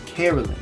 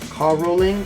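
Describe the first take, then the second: First: The first syllable has a 'keh' sound. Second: The first syllable has a 'ka' sound. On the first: The speaker calls it right. "we pronounce the word caroling ... with the K E sound" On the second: The speaker calls it wrong. "or you can have the ca, ca rolling"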